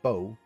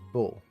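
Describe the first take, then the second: First: The name has an English pronunciation. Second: The name has a French pronunciation. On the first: "in English my name is" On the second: "In French my name is"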